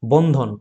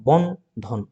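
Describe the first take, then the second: First: Said in the usual way. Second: বন, then ধন after a short pause; two separate beats, বন and ধন; split into syllables. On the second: Shown as a demonstration. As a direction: break the word into বন and ধন. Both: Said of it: "তাহলে বন আর ধন দুটি দল".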